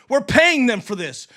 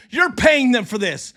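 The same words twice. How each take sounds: First: "paying" leaned on, "We're" kept light; stress on paying. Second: "You're" punched as the key word; stress on you're. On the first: Streamer complaining about ref costs, stress on "paying". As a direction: hit "paying" in "We're paying them for this". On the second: Streamer turning to his viewers, stress on "You're". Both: Real, not acted. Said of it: "we're, you're".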